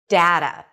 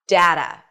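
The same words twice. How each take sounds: First: The first vowel sounds like the one in cat. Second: The first vowel sounds like the one in cat.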